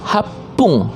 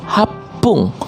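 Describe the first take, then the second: Both takes have the same delivery.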